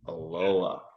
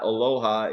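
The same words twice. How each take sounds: First: It is pronounced the local Oregon way. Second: It is pronounced the Hawaiian way. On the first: The speaker calls it right. "It's aloha" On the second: The speaker calls it wrong. "you're not in Hawaii. It's not aloha"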